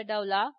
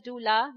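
First: Doula mispronounced DOW-la; wrong pronunciation. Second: Doula said DOO-la, with an oo; correct pronunciation. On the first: Childbirth educator showing parents the mistake, doula mispronounced DOW-la. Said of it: "not a doula". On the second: Childbirth educator teaching parents the term, doula pronounced DOO-la. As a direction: say doula with a long oo in the first syllable. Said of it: "it's pronounced as doula". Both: Shown as a demonstration.

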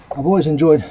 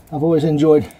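No difference in how they are said.

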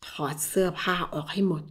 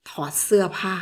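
First: ถอดเสื้อผ้าออกให้หมด said low and soft, voiced, a cold order; low quiet command. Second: ถอดเสื้อผ้า whispered, no voice, a cold order; whispered command. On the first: Husband coldly ordering wife, low and quiet. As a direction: quietly order her to strip. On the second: Acted. Husband ordering wife to undress, whispering. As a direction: breathe the order at her.

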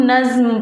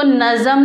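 First: नज़्म as one syllable, ज़ running straight into म; no vowel between ज़ and म in नज़्म; correct joined reading. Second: नज़म in two syllables, an "a" between ज़ and म; wrong reading with vowel. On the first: Teacher gives class the right reading, नज़्म joined. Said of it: "इसको हम नज़्म पढ़ेंगे". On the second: Teacher warns class of a misreading, नज़म said with extra "a". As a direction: put a short "a" before the म in नज़म. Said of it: "हम इसको नज़म नहीं पढ़ेंगे". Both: Shown as a demonstration.

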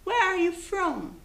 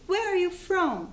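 The two takes are said the same way.

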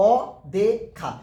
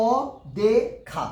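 First: Said in the usual way. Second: অদেখা stretched very slowly, syllables pulled apart; slow syllable demo of অদেখা. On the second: Shown as a demonstration. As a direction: drag out অদেখা to count its syllables. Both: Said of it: "দেখো অচেনা কবারে বলছি?".

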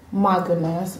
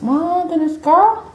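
First: Low, soft aside; understated swoon. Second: High, playful swoon; hammed-up gushing. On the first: Real, not acted. First take, low, then exaggerated. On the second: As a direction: squeal it in mock amazement. Repeats it gushing over pizza.

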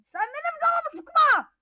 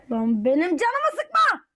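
First: High-pitched retort, sıkma stressed; squeaky toy snapping back. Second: Said in the usual way. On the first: Acted. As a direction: answer back in a squeaky character voice. Second character answers back.

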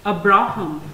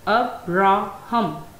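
First: Said in the usual way. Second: "Abraham" slowly, broken into three separate syllables. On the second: Shown as a demonstration. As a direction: split "Abraham" into its syllables, pausing between each. Word split into its three syllables.

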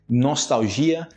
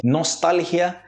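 First: "nostalgia" as nos-tau-ZHI-a; Portuguese nostalgia; Portuguese pronunciation. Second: "Nostalgia" as nos-TAL-hia; higher Spanish Nostalgia; Spanish pronunciation. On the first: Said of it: "em português". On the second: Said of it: "Em espanhol primeiro". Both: Shown as a demonstration.

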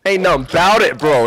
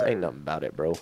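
First: Louder, punched-up self-encouragement; pumped-up pep talk. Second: Low, soft mutter to oneself; quiet pep talk. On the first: Player psyching himself up to go on, pumped-up pep talk. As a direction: say it out with force, psyching yourself up. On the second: Player steadying himself before a jump, quiet pep talk. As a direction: say it low and under your breath. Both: Real, not acted.

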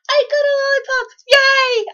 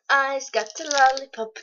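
First: Very high, loud gleeful cry; excited squeal. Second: Said in the usual way. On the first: Real, not acted. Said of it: "I'm so excited". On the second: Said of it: "I'm so excited because I got a lollipop".

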